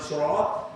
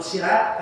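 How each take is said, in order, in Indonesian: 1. Bunyi s pertama berat dan dalam. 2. Bunyi s pertama ringan dan tipis. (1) "jalan lurus" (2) "kantor polisi"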